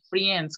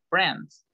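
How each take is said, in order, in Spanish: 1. La vocal se dice con un sonido de i antes de la e. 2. La vocal es una e simple, sin sonido de i. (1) "decir friends con i" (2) "La i no se pronuncia"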